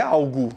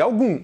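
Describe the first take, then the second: First: ALGO ending "goo", without nasal sound; oral final vowel. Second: ALGUM ending on a nasal U. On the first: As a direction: keep ALGO's last vowel oral. ("algo" com final oral, sem nasalizar) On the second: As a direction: send ALGUM's last vowel through the nose. ("algum" com U nasal) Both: Shown as a demonstration. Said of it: "tá só nasalizando esse U".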